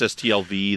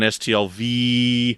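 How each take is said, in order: First: The final V is drawn out a little. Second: The final V is drawn out the longest. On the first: It stands for the first year. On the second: It stands for the fourth year.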